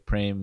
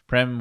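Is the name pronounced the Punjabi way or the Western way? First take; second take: Punjabi; Western. First: The name is said with a Punjabi pronunciation. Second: The name is said with a Western English pronunciation. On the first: The speaker calls it right. "would be more correct in Punjabi" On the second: The speaker calls it wrong. "Westerners say"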